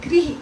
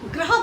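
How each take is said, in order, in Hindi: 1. पहला अक्षर 'gri' की तरह बोला जाता है। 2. पहला अक्षर 'gra' की तरह बोला जाता है। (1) "ये है गृह" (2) "बोलते समय गलती की जाती है, ग्रह बोल देते हैं"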